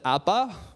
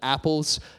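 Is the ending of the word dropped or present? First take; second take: dropped; present. First: The word's ending is dropped, sounding like appa. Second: The word is said in full with its ending. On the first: The speaker calls it wrong. "He kind of says appa, which is super cute, but not really right" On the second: The speaker calls it right. "we would pronounce it apples"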